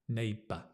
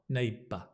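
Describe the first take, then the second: No difference in how they are said.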